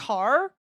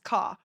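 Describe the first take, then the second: First: It is said with a clear final r sound. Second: It is said without a final r sound. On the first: This is how an American listener says it. "he would have to say it as" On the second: This is how the speaker's own accent says it. "it just sounds like C A for us, where it's just car"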